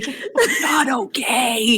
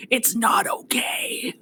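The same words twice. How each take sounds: First: Drawn-out, voiced admission of trouble; slow, strained aside. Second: Slow, unvoiced aside; soft whispered secret over someone's head; mouthed whisper. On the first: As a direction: say it slowly and aloud, dropping the reassurance. Breaks from soothing, before mouthing it. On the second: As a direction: mouth it silently with just breath. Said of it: "He's mouthing over her head".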